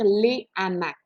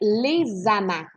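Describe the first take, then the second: First: No linking sound comes between les and hamacs. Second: The s of les links into hamacs as z. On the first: The speaker calls it right. "tu vas vraiment dire les hamacs" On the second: The speaker calls it wrong. "est-ce que tu vas dire les hamacs? Non"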